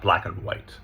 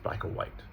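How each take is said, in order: First: "and" said fully with its d; stressed linking word. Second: "and" shrunk to a quiet uh; soft, "and" swallowed to a schwa; unstressed linking word. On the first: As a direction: pronounce "and" in full. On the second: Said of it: "But we don't stress it". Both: Shown as a demonstration.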